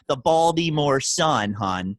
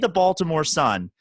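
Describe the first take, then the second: First: It is said in a Baltimore accent. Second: It is said in a plain accent.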